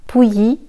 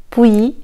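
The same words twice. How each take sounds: Both takes have the same delivery.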